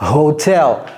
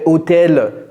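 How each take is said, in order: First: The word starts with a breathy h sound. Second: The word starts without an h sound. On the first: The speaker calls it right. "non c'est ho" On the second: The speaker calls it wrong. "En anglais c'est pas euh"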